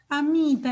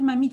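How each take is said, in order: First: The word begins with a vowel sound. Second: The word begins with an M sound. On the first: "el niñito de dos años dice" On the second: "en lugar de decir mamita"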